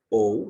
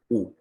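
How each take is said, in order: First: Two separate vowels, o then u, are said. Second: A single u vowel is said. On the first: The speaker calls it wrong. "no decimos O U" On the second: The speaker calls it right. "sino decimos U"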